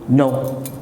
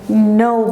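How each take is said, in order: First: It is said bluntly and curtly. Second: It is said warmly, with a smile. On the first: The refusal is rude and disrespectful. The speaker calls it wrong. "That's rude. That's impolite" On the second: The refusal is polite and appreciative. The speaker calls it right. "me saying no, and I'm smiling"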